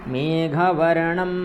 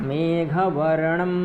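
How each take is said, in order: The two takes are said the same way.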